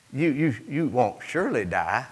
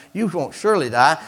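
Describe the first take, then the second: First: Soft, lower, halting tempter; hesitant serpent. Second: Quick, questioning tempter; insistent serpent. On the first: Serpent tempting the woman, soft and hesitant. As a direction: stammer softly towards a questioning end. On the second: Serpent reassuring the woman, quick and insistent. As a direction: repeat it briskly, lifting the end. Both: Acted. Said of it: "the serpent said to the woman".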